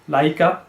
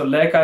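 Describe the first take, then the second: First: The first vowel glides from a to i. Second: The first vowel is a plain e sound. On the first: The speaker calls it right. "going from la to e, so making a lai" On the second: The speaker calls it wrong. "So leka is incorrect"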